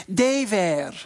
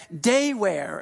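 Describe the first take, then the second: First: Put-on "Day wear" said as "Tay vear" in a Russian accent; mock Russian announcer, "Day wear" with a hard t and v; light Russian accent. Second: Said in the usual way. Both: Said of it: "of course, with a Russian accent".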